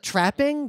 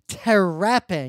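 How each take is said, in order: First: The consonants run together with no extra vowel. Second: An extra vowel splits the first consonant cluster. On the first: "instead of trapping" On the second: "Sneaking extra vowels in between consonants"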